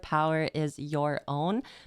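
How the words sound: Every R sound is clearly and fully pronounced. The speaker calls it wrong. "I kept enunciating a little too much"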